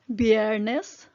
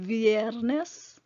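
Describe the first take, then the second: First: The word begins with a B sound. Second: The word begins with a V sound.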